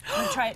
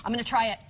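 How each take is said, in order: First: Much higher playful sing-song. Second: Said in the usual way. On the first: Pretend. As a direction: lift it way up, playful. Announces tasting the dish.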